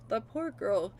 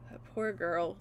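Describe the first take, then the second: First: Said in the usual way. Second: Sighing softly. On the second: Real, not acted. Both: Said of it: "grieving for Ren".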